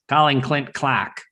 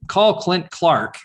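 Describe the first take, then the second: First: Slow Aussie male phone-assistant voice, "Clark" as "Clack"; Aussie accent. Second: Said in the usual way. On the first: Retold or imitated. Siri answering a caller in an imitated Aussie accent. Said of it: "I chose an Aussie male". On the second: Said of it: "when I say".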